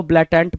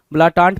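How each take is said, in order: First: ब्लैटेंट said "blay-tent", front vowels; flat-A pronunciation. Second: ब्लाटांट said "blaa-taant", two long "aa" vowels; broad-A pronunciation. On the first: Teacher telling students either reading works, ब्लैटेंट with front vowels. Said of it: "ब्लैटेंट पढ़ो". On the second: Teacher telling students either reading works, ब्लाटांट with long "aa". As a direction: open both vowels of ब्लाटांट to "aa". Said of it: "ब्लाटांट पढ़ो". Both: Shown as a demonstration.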